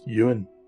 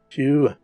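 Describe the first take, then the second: First: The name is said like English Ewan. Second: The name is said with Gaelic pronunciation. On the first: The speaker calls it wrong. "it is not pronounced Ewan" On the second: The speaker calls it right. "is actually pronounced Hugh"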